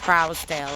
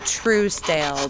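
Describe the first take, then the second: First: The first syllable rhymes with 'trout'. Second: The first syllable rhymes with 'true'. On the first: This is how the name was said locally. "I believe it was pronounced Trousdale up here" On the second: This is how most people say the name. "I know most people pronounce it Truesdale"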